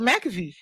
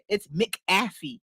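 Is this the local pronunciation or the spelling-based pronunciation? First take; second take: local; spelling-based. First: It is pronounced the way locals say it. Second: It is pronounced the way it is spelled. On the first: This is what everyone around here calls it. The speaker calls it wrong. "we all you call it McAfee" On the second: This is how the name is actually written. The speaker calls it right. "Read it. It's McAfee. Look at the word"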